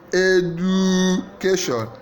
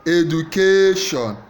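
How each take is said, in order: First: The stress is on the second syllable. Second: The stress is on the third syllable. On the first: "Second syllable" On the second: "Third syllable"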